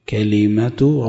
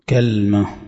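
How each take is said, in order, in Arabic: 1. أول حرف علة مفتوح، وبعد اللام حرف علة كسرة. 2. أول حرف علة مفتوح، ولا يوجد حرف علة بعد اللام. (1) "كلمة ربك بفتح الكاف وكسر اللام" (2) "بفتح الكاف وسكون اللام على وزن تمرة"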